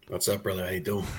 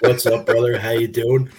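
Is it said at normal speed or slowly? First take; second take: normal; slowly. First: It is said at normal speed. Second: It is said more slowly.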